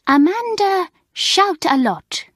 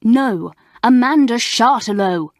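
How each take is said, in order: First: 'Shout-a-Lot' said high, loud and slow, French style; mispronounced name. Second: 'Chartelot' said firmly and loudly, correct English; loud, contemptuous correction of the name. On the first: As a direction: mangle the name with a French accent. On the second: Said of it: "she said in a loud voice". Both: Acted.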